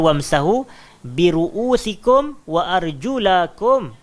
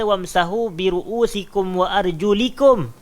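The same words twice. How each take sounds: First: "arjulakum" said with an a sound after the l, slow; correct vowel ending. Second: "arjulikum" said with an i sound after the l, slow; wrong vowel ending. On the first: Teacher gives the correct reading against the wrong one, slow recitation. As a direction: stretch out "arjulakum" with a clear a sound, slowly. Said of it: "Allah kata". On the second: Teacher shows the wrong reading of the verse, slow deliberate recitation. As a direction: stretch out "arjulikum" with an i sound, slowly. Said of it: "Tapi Allah tak kata". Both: Shown as a demonstration.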